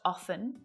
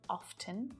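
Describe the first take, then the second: First: The T in the middle is silent. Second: The T in the middle is pronounced. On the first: "it can be pronounced often with a silent T" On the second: "or it can be pronounced as often"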